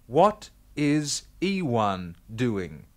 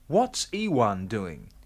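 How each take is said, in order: First: What and is are said as separate words. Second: What and is merge into one short syllable.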